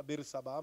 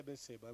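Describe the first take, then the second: First: Bersabá said ber-sa-BÁ, stress on the last syllable; wrong reading Bersabá. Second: Berseba said ber-SE-ba, stress on the middle syllable; correct Berseba. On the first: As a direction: say Bersabá with final stress, as that version reads it. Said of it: "Essa aí fala Bersabá". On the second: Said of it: "mas é Berseba". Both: Shown as a demonstration.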